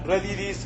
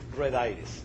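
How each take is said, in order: First: It is said as one word, Spanish style. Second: It is said as two English words. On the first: The speaker calls it right. "You should really pronounce it" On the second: The speaker calls it wrong. "never pronounce it red iris"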